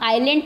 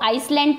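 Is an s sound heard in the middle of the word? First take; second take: no; yes. First: No s sound is pronounced before the l. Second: An s sound is pronounced before the l. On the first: The speaker calls it right. "इसको हम आइलैंड पढ़ते हैं, एस silent रहता है इसमें।" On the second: The speaker calls it wrong. "बच्चे इसको बहुत गलत प्रोनाउंस करते हैं, इसको आइसलैंड पढ़ते हैं।"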